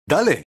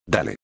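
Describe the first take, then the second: First: "Dale" pitched up high, bright and keen; eager go. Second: Low, soft cocky "Dale"; smug acceptance. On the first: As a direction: launch it high like starting a match. Upperclassman starts the fight eagerly. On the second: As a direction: toss it off low and quiet, confident. Smug friend accepts sparring challenge. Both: Acted.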